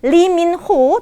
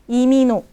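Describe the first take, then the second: First: It starts with a clear L sound. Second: The syllables run together and h drops. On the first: The speaker calls it wrong. "Bukannya Lee Min Ho" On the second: The speaker calls it right. "kalau dibaca dengan natural Imino"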